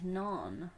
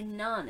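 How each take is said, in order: First: The vowel sounds like the word 'non'. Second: The vowel sounds like the word 'none'. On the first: The speaker calls it right. "It's non" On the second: The speaker calls it wrong. "you can't say none"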